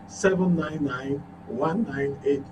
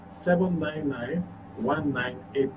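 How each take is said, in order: Both takes have the same delivery.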